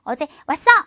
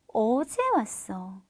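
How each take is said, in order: First: The stress falls on the word 왔어. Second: The stress falls on the word 어제. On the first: It stresses the act of coming itself. The speaker calls it wrong. "이렇게 말하는 거예요. 왔어!" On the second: It stresses when the coming happened. The speaker calls it right. "동사가 갖고 있는 강조 포인트를 빼앗아서 앞에 보통 시간"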